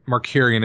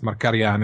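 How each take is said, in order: First: The name is said with English sounds. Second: The name is said with non-English sounds. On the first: This is the anglicized form of the name. "an English anglicized pronunciation" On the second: This is the original form of the name. "I think it's Markarian"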